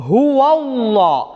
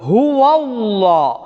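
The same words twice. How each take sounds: The two takes are said the same way.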